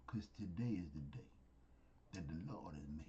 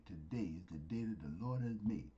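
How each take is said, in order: First: Whispered scripture, much softer and lower. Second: Said in the usual way. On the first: Shown as a demonstration. Preacher repeats the verse to listeners, whispering. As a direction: let the verse drop to a hushed whisper.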